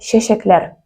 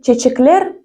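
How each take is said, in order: First: The consonants are pronounced as a soft 'shch'. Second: The consonants are pronounced as a hard 'ch'. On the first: The speaker calls it right. "буква Ч произносится как Щ" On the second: The speaker calls it wrong. "Произнести его как чечеклер будет неправильно"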